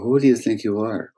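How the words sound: It is said as a sincere, curious question.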